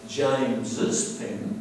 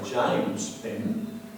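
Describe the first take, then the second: First: An extra S syllable follows the name. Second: No extra S syllable follows the name. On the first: The speaker calls it right. "we say James's pen" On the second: The speaker calls it wrong. "we don't say James' pen"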